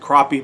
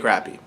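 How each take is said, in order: First: The first vowel does not sound like 'happy'. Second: The first vowel sounds like the one in 'happy'. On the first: The speaker is from the north or Midwest. "if you're from the north or Midwest, you have French people there, so they actually pronounce it crappie" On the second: The speaker is from the South. "looks like happy, we say crappy"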